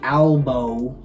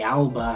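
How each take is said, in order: First: The word ends in an 'oh' vowel. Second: The word ends in an 'ah' vowel. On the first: The speaker calls it right. "the verdict of this little dispute is Albo. A L B O" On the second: The speaker calls it wrong. "however you want to pronounce it. I've heard both"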